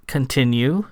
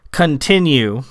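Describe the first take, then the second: First: "Continue" lifted into a question at the end; questioning repeat. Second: Said in the usual way. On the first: A narrator's reading. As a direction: echo "Continue" uncertainly, ending upward. Sam repeats word, unsure.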